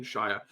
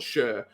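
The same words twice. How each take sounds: First: "Shire" said to rhyme with fire; full-vowel Shire. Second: "Shire" shortened to sound like "sher"; reduced Shire. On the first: Game master showing the county ending, "Shire" as in fire. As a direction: say "Shire" with a long eye vowel. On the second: Game master offering the other accent's ending, "Shire" as "sher". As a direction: say "Shire" with a weak vowel, as "shur". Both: Shown as a demonstration. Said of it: "depending on which ... posh accent you decide".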